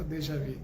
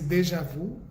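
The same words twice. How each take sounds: First: It is said with a French pronunciation. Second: It is said with a Portuguese-style pronunciation.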